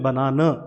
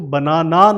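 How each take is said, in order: First: The word ends with a short neutral 'uh' vowel. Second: The word ends with a long open 'aah' vowel. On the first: The speaker calls it right. "हमने बनाना, अ अ sound जो है last में pronounce किया" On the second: The speaker calls it wrong. "इसको आ नहीं pronounce किया, इसको बनाना नहीं बोला"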